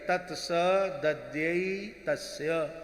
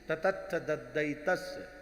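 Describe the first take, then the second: First: The cluster is said clearly as 'tats dadyai'. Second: The cluster is garbled into 'tatatth daddai'. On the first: The learner finally pronounced it properly. The speaker calls it right. "तब एक एक कर" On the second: The learner could not pronounce it properly. The speaker calls it wrong. "ततत्थ दद्दै तस्य ऐसे बोलते थे"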